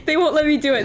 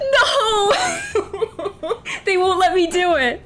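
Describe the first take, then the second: First: Said in the usual way. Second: High laughing protest, louder; cracking up in mock outrage. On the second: Real, not acted. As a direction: laugh through the disbelief. Game blocks her attack choice.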